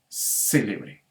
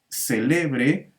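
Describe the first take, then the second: First: The stress is on the first syllable. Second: The stress is on the second syllable. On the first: It is an adjective meaning famous. "la sílaba tónica se ubica en la antepenúltima sílaba" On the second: It is a verb meaning to celebrate. "ahora la sílaba tónica está en la penúltima sílaba"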